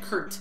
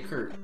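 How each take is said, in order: First: The final T is clearly released. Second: The final T is a glottal stop. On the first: "there's a T there, so you should be saying" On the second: "like glottal stop"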